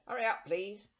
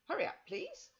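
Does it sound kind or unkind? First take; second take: unkind; kind. First: It is said in an unkind, brusque way. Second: It is said in a softer, kinder way.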